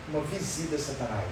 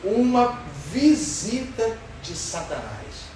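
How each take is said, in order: First: Softer, lower echo of the phrase; quiet repeat. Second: Each word drawn out slowly; slow emphasis. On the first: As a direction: let it sink in quietly. (repetição baixa e suave) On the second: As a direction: lean slowly on every word. (ênfase lenta, palavra por palavra) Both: Shown as a demonstration.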